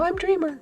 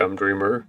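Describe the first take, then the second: First: The voice is pitched very high. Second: The voice is pitched low. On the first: "I'm not that high pitched" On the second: "Too low?"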